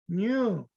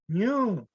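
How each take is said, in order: First: The word is said on a high tone. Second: The word is said on a high tone.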